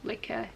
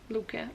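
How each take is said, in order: First: It sounds like the English word liquor. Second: It sounds like Luca, with an oo vowel. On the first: The speaker calls it wrong. "Everyone says liquor, but it's not liquor" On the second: The speaker calls it right. "it's Luca"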